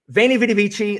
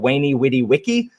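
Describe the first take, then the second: First: It is said with Italian pronunciation. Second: It is said with classical Latin pronunciation. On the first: "that's the Italian way" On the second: "in Latin, it's actually pronounced"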